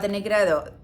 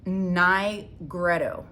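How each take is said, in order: First: The word is pronounced with a Spanish sound. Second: The word is pronounced with an English sound. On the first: The speaker calls it wrong. "I keep wanting to pronounce it in Spanish" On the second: The speaker calls it right. "because that's the English word"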